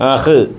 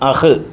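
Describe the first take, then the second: Both takes have the same delivery.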